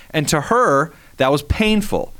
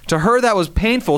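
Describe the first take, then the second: First: Said in the usual way. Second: "that" punched a bit higher; stress on that. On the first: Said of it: "repeats the line". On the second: Shown as a demonstration. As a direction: lean on "that" in "that was painful". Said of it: "repeats it with emphasis".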